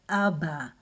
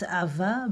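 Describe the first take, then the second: First: The middle consonant is a B sound. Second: The middle consonant is a V sound. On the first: The speaker calls it right. "the Dagesh that it will sound B" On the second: The speaker calls it wrong. "and not Ava"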